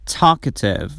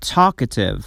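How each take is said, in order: Both takes have the same delivery.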